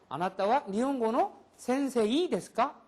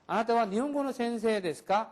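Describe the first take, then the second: First: Sensei ends with a clear separate i. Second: Sensei ends with a lengthened e sound. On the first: The speaker calls it wrong. "이 발음을 굳이 안 해줘도 된다는 거예요" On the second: The speaker calls it right. "이렇게 하지"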